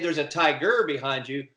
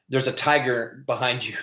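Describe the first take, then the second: First: Tiger is stressed on the second syllable. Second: Tiger is stressed on the first syllable.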